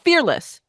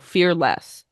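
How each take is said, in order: First: It is said smoothly as one single word. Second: It is split into two parts, fear and less. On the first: The speaker calls it wrong. "not fearless" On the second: The speaker calls it right. "this is Fear Dash Less"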